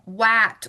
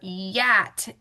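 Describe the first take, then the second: First: The word begins with a W sound. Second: The word begins with a Y sound. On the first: "if you hear it become wat" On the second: "or yat"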